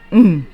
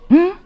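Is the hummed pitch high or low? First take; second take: low; high. First: The hum is on a low, dropping pitch. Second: The hum is on a high, rising pitch. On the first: "Your voice drops" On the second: "It goes up"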